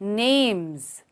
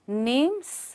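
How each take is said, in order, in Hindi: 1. शब्द z sound पर खत्म होता है। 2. शब्द s साउंड पर खत्म होता है। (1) "उसका साउंड ज आता है।" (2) "नेम्स नहीं"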